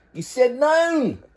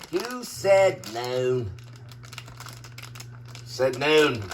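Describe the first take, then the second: First: High slow singsong. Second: Low, slow, deadpan. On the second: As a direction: drop it low and drag it out. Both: Pretend. Repeats line in two voices.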